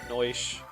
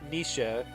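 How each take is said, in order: First: The name sounds like Noish. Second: The name sounds like Nisha. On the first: The speaker calls it wrong. "instead of Noish" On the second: The speaker calls it right. "saying correctly"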